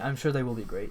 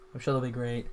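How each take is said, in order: First: The tone sounds sincere and earnest. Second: The tone sounds sarcastic and doubtful. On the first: The speaker genuinely believes it. The speaker calls it right. "It's not meant to be" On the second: The speaker seems not to believe it. The speaker calls it wrong. "that sounded so sarcastic"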